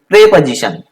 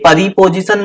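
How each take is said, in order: First: It begins with 'pre', with no extra vowel. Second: It begins with 'pari', adding an extra vowel. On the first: The speaker calls it right. "इसको प्रेपोजिशन" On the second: The speaker calls it wrong. "ये परिपोजिशन मत पढ़ना"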